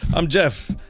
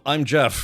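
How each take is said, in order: First: It is said in a 1930s New York accent. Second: It is said in a plain, neutral accent. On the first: The speaker calls it right. "it should be, ... It's nineteen thirties New York" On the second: The speaker calls it wrong. "I talk like this"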